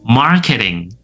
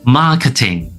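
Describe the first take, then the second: First: American accent, with the r sound pronounced. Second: British accent, with no r after the vowel. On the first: "Marketing for American English" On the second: "Marketing for British English"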